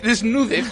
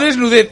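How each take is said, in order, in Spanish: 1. El acento está en la sílaba del medio. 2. El acento está en la última sílaba. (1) "Con acento en la U" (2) "No desnudez"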